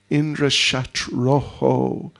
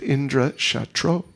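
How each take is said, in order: First: The last word ends with an echoed 'oho' sound. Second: The last word ends plainly without the echoed sound. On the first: The one who is the enemy of Indra. The speaker calls it right. "Visarga, you double the vowel sound" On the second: Someone whose enemy is Indra. The speaker calls it wrong. "But they said Indra Shatro"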